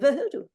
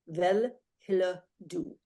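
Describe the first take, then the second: First: Parts of the words are dropped and swallowed. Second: Every syllable of the words is pronounced in full. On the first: This is how native speakers actually say it. "Danes don't say that. They say" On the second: This is the written form read aloud. "that's how it reads"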